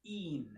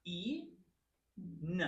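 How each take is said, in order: First: "een" as one long ee running into n; a whole, unbroken "een"; blended into one word. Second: "E, N" as a long ee, a pause, then n alone; "E" and "N" as two isolated sounds; sounded out in parts. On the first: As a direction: join the sounds smoothly into "een". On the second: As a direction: break "een" into "E" and "N" for a learner. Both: Shown as a demonstration. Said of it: "So it's pronounced".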